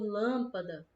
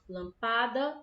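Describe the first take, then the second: First: The syllable 'lâm' is stressed and drawn out. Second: The stress falls away from the syllable 'lâm'. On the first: The speaker calls it right. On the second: The speaker calls it wrong.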